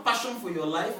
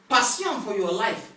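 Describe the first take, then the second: First: Said in the usual way. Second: "Passion" said the French way, pah-syon; French "Passion" inside an English phrase; French pronunciation. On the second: Shown as a demonstration. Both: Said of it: "What is passionate in French?".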